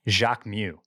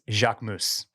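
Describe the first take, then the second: First: The final S is silent. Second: The final S is sounded. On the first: The speaker calls it wrong. "it is not" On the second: The speaker calls it right. "it gets the S"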